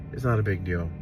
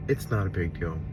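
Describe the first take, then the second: No difference in how they are said.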